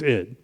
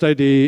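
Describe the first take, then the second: First: It is said as one short word. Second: It is spelled out as two separate letters. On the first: The speaker calls it right. "it's id" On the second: The speaker calls it wrong. "It's not pronounced I D"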